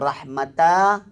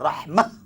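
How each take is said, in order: First: The word ends with an added ta syllable. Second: The word ends with a silent-stopped h sound. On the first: The speaker calls it wrong. "jangan baca rahmata" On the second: The speaker calls it right. "Dia kena dimatikan hanya rahmah"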